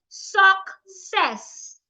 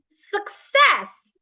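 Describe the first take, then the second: First: The stress is on the first syllable. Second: The stress is on the second syllable. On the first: The speaker calls it wrong. "I won't say success" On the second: The speaker calls it right. "but success"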